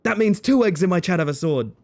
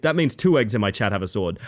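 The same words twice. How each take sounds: First: High, punched-up delighted delivery; delighted repeat. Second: Said in the usual way. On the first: Real, not acted. Streamer repeats the joke for chat, delighted. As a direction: pitch it up, relishing the joke.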